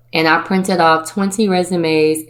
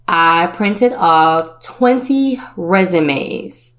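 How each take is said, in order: First: Said in the usual way. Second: Slow, leaning hard on twenty; "twenty" drawn out and stressed, slow delivery; slow emphasis. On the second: Acted. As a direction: make the number land slowly. First telling, emphasized.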